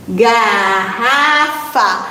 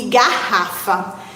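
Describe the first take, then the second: First: "garrafa" very slow, split into ga, rra, fa; syllable by syllable. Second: Said in the usual way. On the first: Shown as a demonstration. Teacher splitting "garrafa" to locate its middle, slowly syllable by syllable. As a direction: draw out each syllable of "garrafa". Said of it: "separar as sílabas". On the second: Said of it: "vamos primeiro separar as sílabas".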